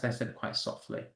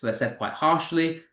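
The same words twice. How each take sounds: First: Hushed, almost whispered; said softly. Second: Firm, full-voiced "said quite harshly"; harsher stressed delivery. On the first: Teacher showing how unstressed words sound, very softly. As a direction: let the voice fall away to a breath of sound. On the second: Teacher showing how stressed words sound, said firmly. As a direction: put weight on "harshly", voice fully on. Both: Shown as a demonstration. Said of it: "That's why I'm talking like that".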